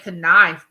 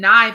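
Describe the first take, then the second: First: The K sound at the start is pronounced. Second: The K sound at the start is silent. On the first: The speaker calls it wrong. "you don't say knife, do you?" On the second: The speaker calls it right. "The K is silent"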